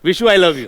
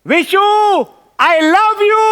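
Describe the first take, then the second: First: It is said at a normal, quiet volume. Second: It is shouted very loudly. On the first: The speaker calls it wrong. "असं नाही" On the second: The speaker calls it right. "मोठ्याने ओरडून बोलायचं"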